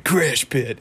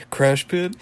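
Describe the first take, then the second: First: Cartoon reply. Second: Raised questioning tune, attempting a high cartoon voice; High Five Ghost. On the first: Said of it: "And then he's like". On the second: Fan retrying the ghost's too-high voice, raised pitch. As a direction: lift it high, rising on "Pit". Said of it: "It's too high".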